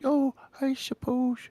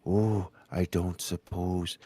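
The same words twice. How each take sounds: First: Put-on high, slow posh old man; higher voice. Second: Put-on low old man voice. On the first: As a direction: lift it up into a fussy old gent. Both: Shown as a demonstration. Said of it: "Then you go a little".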